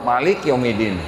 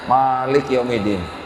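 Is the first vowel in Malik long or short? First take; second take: short; long. First: The first vowel in Malik is short. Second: The first vowel in Malik is long. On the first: This is the reading used in another region. "di Maroko ... pendek" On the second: This is the reading used in one region. "di Indonesia bacanya ... panjang"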